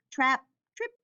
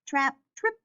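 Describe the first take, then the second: No difference in how they are said.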